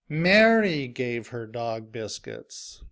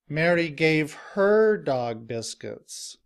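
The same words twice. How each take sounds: First: The stress falls on the word Mary. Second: The stress falls on the word her. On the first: It was this person, not another, who gave them. "I stress Mary because I want to emphasize who is giving her dog biscuits" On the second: It was her own dog that received them. "the stress is now on the word her"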